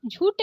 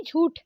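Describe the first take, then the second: First: झूठ said as jhoot, plain t; wrong ट for ठ. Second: झूठ with a breathed final th; correct aspirated ठ. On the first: Teacher showing the mistake, झूठ with plain t. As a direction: leave the puff off the end of झूठ. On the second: Teacher correcting it, झूठ with aspirated th. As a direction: release air on ठ in झूठ. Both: Shown as a demonstration. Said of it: "झूठ नहीं झूठ".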